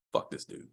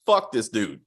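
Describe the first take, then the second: First: Breathy unvoiced whisper. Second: Said in the usual way. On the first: Real, not acted. Reviewer whispers his verdict again to himself, whispered. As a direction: hiss it under your breath. Repeats line, then whispers it.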